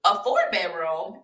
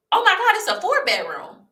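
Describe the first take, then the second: First: Questioning echo with a rising end; disbelieving question. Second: Much higher, gushing exclamation; excited realtor. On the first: Her replying to the realtor, surprised and questioning. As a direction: echo it back in retold disbelief. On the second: Realtor discovering the back rooms, high and excited. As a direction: imitate a thrilled discovery, pitched high. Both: Retold or imitated.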